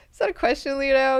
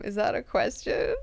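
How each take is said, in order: First: Higher, pressing repeat of the question; insistent repeat. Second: Said in the usual way. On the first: Retold or imitated. Mineo pressing Leto again after his riddle. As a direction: push him for an answer.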